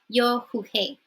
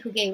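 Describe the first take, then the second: First: The middle consonant is a breathy h sound. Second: The middle consonant is a hard g sound. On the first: "G and E together in Spanish makes a he sound" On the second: "you think it would be jugué"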